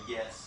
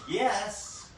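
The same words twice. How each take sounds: First: It is said softly and with less energy. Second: It is said loudly and with a lot of energy. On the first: The speaker calls it right. "so yes is better" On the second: The speaker calls it wrong. "sometimes yes is too much"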